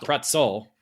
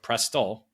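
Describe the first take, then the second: First: The middle sounds like 'ts', as in pretzel. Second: The middle sounds like 'st', as in presto. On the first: The speaker calls it wrong. "not Pretzel" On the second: The speaker calls it right. "but Prestol"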